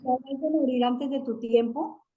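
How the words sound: It is read as a question.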